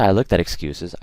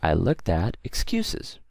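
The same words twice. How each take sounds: First: It runs on without a pause before 'excuses'. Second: A brief pause comes before 'excuses'. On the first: The speaker calls it wrong. "I don't say" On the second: The speaker calls it right. "I say I looked at excuses, right? So that mini pause there"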